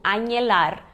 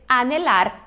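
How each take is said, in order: First: "anelar" as a-nye-LAR; Portuguese NH sound. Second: "anelar" as a-ne-LAR, plain N; silent H. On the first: Teacher imitates learners' mistake, "anelar" with an NH sound. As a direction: say "anelar" with ny in place of N. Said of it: "fazer esse som do português do N H". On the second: Teacher gives the correct verb, "anelar" with silent H. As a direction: say "anelar" without any ny glide. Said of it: "A gente vai simplesmente ignorar esse H". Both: Shown as a demonstration.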